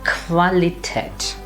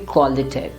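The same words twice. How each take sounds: First: It begins with a kv sound. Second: It begins with a kw sound. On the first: The speaker calls it right. "So the pronunciation would be" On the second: The speaker calls it wrong. "It will not be"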